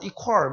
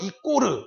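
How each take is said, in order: First: It is said close to English 'equal'. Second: It is said with an extra vowel at the end. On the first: It reflects a newer, more careful pronunciation. "발음이 좋아서 뭐 이퀄 뭐 이렇게 발음하시나 봐요" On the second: It reflects an even more old-fashioned pronunciation. "심지어는 이꼬르 이렇게 하시는 분들이 있었잖아요"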